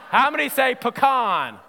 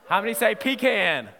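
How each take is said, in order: First: "pecan" said puh-KAHN; "pecan" as puh-KAHN, with a short first vowel; "pecan" sounded puh-KAHN; pecan, stress on second syllable. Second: "pecan" said PEE-can; "pecan" as PEE-can, with a long ee; "pecan" sounded PEE-can; pecan, stress on first syllable. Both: Shown as a demonstration.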